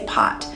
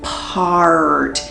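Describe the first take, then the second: First: The word is said with no R sound. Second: The word is said with an exaggerated R sound. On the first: The speaker calls it wrong. "The child would look at the speech pathologist and say pot. And we know that that's not correct" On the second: The speaker calls it right. "would exaggerate the R sound and say"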